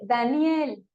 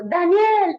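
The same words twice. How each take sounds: First: Said in the usual way. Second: Shouting the name loud and high; calling out. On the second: Retold or imitated. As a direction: call him from the cave's mouth. (gritar el nombre fuerte y agudo) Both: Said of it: "me imagino que hasta le dijo".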